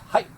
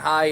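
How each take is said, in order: First: The word is short and crisp. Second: The word is drawled in a Southern American accent. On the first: The speaker calls it right. "very crisp" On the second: The speaker calls it wrong. "not like you're saying hi and you know, I'm a, I'm in the hills of Virginia"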